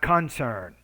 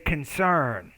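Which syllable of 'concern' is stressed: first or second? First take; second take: first; second. First: The stress is on the first syllable. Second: The stress is on the second syllable. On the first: The speaker calls it wrong. "not concern. So that's your second problem with word stress" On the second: The speaker calls it right. "Has a concern"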